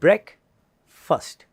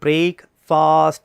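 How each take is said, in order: First: The second syllable has a short, reduced vowel. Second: The second syllable has a long, stretched vowel. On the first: The speaker calls it right. "Correct pronunciation വരുന്നത് ബ്രേക്ക് ഫസ്റ്റ്" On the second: The speaker calls it wrong. "അത് നീട്ടേണ്ട കാര്യമില്ല, അത് മിസ്പ്രൊനൗൺസിയേഷൻ ആണ്"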